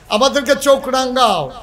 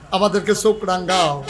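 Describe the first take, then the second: First: Raised, higher repeat of a challenge; forceful rhetorical challenge; defiant challenge. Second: Said in the usual way. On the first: Real, not acted. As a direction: throw it at the enemy from the pulpit.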